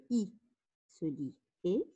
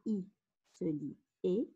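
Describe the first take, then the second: No difference in how they are said.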